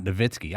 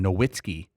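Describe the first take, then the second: First: "Nowitzki" said with a V, "nuh-VIT-skee"; corrected name pronunciation. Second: "Nowitzki" said with an English W, "no-WIT-skee"; mispronounced name. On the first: Shown as a demonstration. Host correcting the draft's version, "Nowitzki" pronounced with a V. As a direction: turn the W of "Nowitzki" into a V. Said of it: "They called him Nowitzki". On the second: Retold or imitated. Host mimicking draft announcers saying "Nowitzki" with a W, mispronounced. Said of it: "They didn't even pronounce his name".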